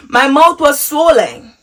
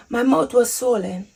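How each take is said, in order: First: Said in the usual way. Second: Hushed repeat. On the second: Real, not acted. Telling viewers about waking up swollen, hushed repeat. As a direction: let it sink in, softly. Repeats the reveal much softer.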